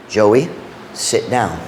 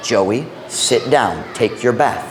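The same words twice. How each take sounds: First: Stern father. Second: Slow, deliberate "Joey, sit down", each word weighed; slow firm command. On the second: Father ordering toddler the third time, slowly and firmly. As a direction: drag out "sit down" as a final warning. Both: Retold or imitated. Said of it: "But you know what it was?".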